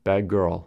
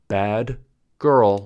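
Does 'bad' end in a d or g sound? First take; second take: g; d. First: 'Bad' ends with a g sound. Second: 'Bad' ends with a d sound.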